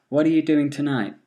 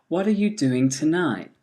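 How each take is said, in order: First: "are" reduced to "ə", said quickly; weak form, faster. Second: Said in the usual way. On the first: Shown as a demonstration. Teacher giving the weak-form answer quickly. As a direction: blur "What are you" into "whatcha". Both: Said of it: "here are the answers".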